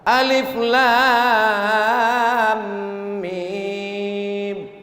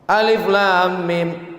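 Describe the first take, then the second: First: The vowels are drawn out long. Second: The vowels are held only briefly.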